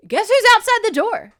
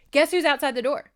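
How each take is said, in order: First: Real high-pitched scream into the mic; over-excited, very loud and high. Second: Excited, raised voice short of screaming; loud-ish teaser, pitched up; toned-down repeat. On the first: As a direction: shriek the big reveal at full volume. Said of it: "I'm screaming into this microphone". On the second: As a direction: announce the reveal, reined in but still lively. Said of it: "Sorry, I'm screaming into this microphone". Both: Real, not acted.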